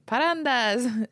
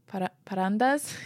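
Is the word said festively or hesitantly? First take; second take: festively; hesitantly. First: The word is said loudly and festively. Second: The word is said hesitantly, like a question. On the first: The speaker calls it right. "I want it to sound festive" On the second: The speaker calls it wrong. "I don't think I said that right"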